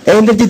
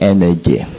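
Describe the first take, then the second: First: It is said loudly, with lots of energy. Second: It is said weakly, with no energy.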